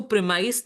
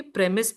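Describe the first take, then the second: First: प्रीमाइस said pree-MICE, with a long "ai" sound; प्रीमाइस pronounced pree-mice, the way to avoid; wrong pronunciation. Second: प्रीमिस said PREM-is, with a short "i"; प्रीमिस with a short clipped "is" ending, the right version; correct pronunciation. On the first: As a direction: say प्रीमाइस with the long "ai" vowel, as the mistaken version. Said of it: "इसको प्रीमाइस नहीं बोलेंगे". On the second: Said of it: "प्रीमिस बोलेंगे". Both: Shown as a demonstration.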